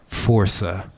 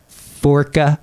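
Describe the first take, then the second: First: The middle consonant is an s sound. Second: The middle consonant is a hard k sound. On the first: The speaker calls it right. "force with an A" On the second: The speaker calls it wrong. "I know I'm probably going to pronounce this wrong"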